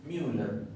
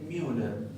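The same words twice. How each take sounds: The two takes are said the same way.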